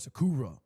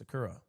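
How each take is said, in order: First: One syllable is said with strong stress. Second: All syllables are said with even stress. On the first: The speaker calls it wrong. "you don't you don't go Sakura or Sakura" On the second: The speaker calls it right. "It's just Sakura"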